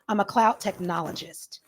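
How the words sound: The voice falls at the end like a statement. It sounds authoritative and certain. The speaker calls it right. "So what you need to do is go down"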